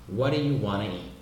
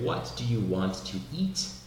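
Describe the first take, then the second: First: It is said the American way, 'want to' becoming 'wanna'. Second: Every word is pronounced fully and carefully.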